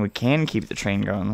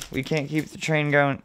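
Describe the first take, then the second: First: CAN stressed as a correction. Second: Said in the usual way. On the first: Real, not acted. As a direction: lean firmly on the word CAN.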